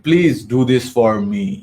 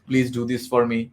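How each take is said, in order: First: "Please do this for me" very slow, with "me" dropped low at the end; falling ending. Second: "Please do this for me" level and even, with "me" ending where "Please" began; flat tone. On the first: Trainer showing the commanding tone, dropping "me" low. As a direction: bring "me" down low, slowly. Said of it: "লাস্টে একটু নিচে নামালাম". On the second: Trainer showing the flat tone, ending "me" level. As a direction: keep it flat to the end. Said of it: "আমি যদি flat বলি". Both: Shown as a demonstration.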